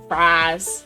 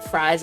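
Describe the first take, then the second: First: The vowel is a drawn-out 'ah' sound. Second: The vowel is a plain 'eye' sound.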